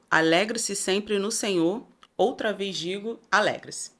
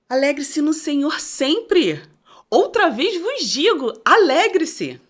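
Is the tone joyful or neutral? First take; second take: neutral; joyful. First: It is said in a neutral, plain tone. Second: It is said in a joyful, happy tone.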